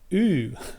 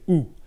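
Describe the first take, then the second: First: The vowel sounds like a disgusted 'ew'. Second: The vowel sounds like a plain rounded 'oo'. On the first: The speaker calls it wrong. "like you just stepped in gum" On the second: The speaker calls it right. "I want you to say U"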